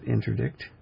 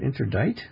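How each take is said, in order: First: The last syllable is pronounced 'dikt' with a k sound. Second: The last syllable is pronounced 'dite' without a k sound. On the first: The speaker calls it right. "I'm not sure if you pronounce it interdict" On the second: The speaker calls it wrong. "Is it interdite? No. But the word indict is spelt like that"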